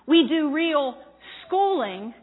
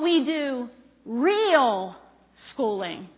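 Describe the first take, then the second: First: The word "do" is stressed. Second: The word "real" is stressed. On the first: The school actually delivers the schooling it promises. "notice my first emphasis was on the second word" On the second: The schooling is genuine, academically excellent schooling. "So I want to make the second point clear"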